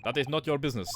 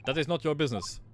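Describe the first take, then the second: First: Put-on blunt Russian-accented refusal; curt Russian accent. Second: Put-on blunt Russian-accented refusal, higher pitched; curt Russian accent again. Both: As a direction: shut them down in a Russian accent.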